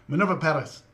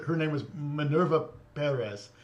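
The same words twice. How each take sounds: First: Imitating a Spanish-accented name, rolled r. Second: Said in the usual way. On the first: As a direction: lightly mimic the newscaster's Spanish accent on the name. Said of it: "crack out the the accent for her name". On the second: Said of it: "they talk normal".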